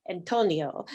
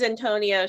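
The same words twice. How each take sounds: First: Attempted Latin accent, lower and playful. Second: Said in the usual way. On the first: Podcaster mimicking a contestant's way of saying Antonio, attempted Latin accent. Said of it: "nice little, like, Latin accent". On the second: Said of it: "Latin accent going on every time she says".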